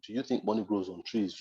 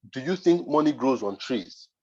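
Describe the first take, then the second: First: Said in the usual way. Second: Slow, condescending quote of the client; mocking client tone. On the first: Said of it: "I don't appreciate that statement". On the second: Client scolding him about his price, slow and condescending. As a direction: lean on think like a scornful client. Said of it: "she used a particular tone".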